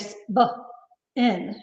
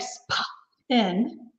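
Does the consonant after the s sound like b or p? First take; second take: b; p. First: The consonant after s is soft, close to b. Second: The consonant after s is a strong, puffed p. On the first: The speaker calls it right. "we say spin" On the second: The speaker calls it wrong. "we don't say spin"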